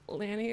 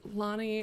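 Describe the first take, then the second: First: The first vowel sounds like the one in 'cat'. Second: The first vowel sounds like the one in 'lot'. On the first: The speaker calls it wrong. "their name was not Lanny" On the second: The speaker calls it right. "it was Lonnie, and it was much more beautiful and elegant"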